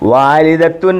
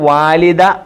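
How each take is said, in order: First: The word ends with a final 'tun' syllable. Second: The word ends on an open 'da' sound. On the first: This is the full written form. "വാലിദത്തുൻ എന്നാണ്" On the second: This is the usual spoken form. "ഈ താഇന് സാധാരണ ഉച്ചാരണം കൊടുക്കാറില്ല"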